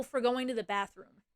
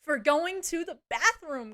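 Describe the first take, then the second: First: Said in the usual way. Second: "going to the bathroom" stretched slow and higher; incredulous repeat. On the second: Real, not acted. Streamer repeats the offence to viewers, "going to the bathroom" slow, incredulous. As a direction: spell out "going to the bathroom" slowly in disbelief.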